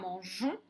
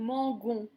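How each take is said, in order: First: The consonant before the ending is a soft j. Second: The consonant before the ending is a hard g. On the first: The speaker calls it right. "pour que ça fasse J" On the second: The speaker calls it wrong. "sinon ça ferait"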